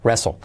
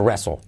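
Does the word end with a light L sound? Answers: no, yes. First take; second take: yes; yes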